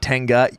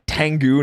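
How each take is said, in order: First: The name ends with an 'ah' vowel. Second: The name ends with an 'oo' vowel. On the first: The speaker calls it wrong. "they pronounce it wrong in the show all the time" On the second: The speaker calls it right. "It is T E N G U"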